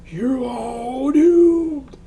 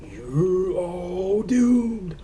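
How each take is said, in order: First: Very slow, much higher shouted doom; ominous shout. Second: Very slow, higher ominous warning; slow ominous raspy drawl. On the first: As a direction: yell the warning like a madman. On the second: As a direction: draw out the doom like a madman. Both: Retold or imitated. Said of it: "has to be Crazy Ralph".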